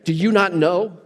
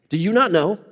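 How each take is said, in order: First: It is said plainly, without attitude. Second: It is said with a bit of attitude.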